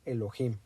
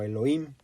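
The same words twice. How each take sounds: First: The middle sound is a harsh throaty J. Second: The middle h sound is silent. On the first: It follows the original pronunciation. The speaker calls it right. "la palabra es Elohim" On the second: It follows the English spelling with a mute h. The speaker calls it wrong. "algunos lo pronuncian como Elohim, pero no"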